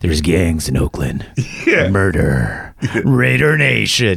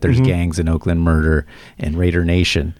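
First: It is said with strong, punchy emphasis. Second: It is said flatly, without added emphasis. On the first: The speaker calls it right. "when I put emphasis on it" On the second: The speaker calls it wrong. "I've tried it before"

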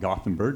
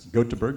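First: The name is said with English pronunciation. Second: The name is said with local Swedish pronunciation. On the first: The speaker calls it wrong. "We call it Gothenburg" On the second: The speaker calls it right. "but it's Gothenburg"

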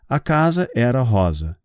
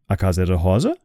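First: The voice falls at the end, as a statement. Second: The voice rises at the end, as a question.

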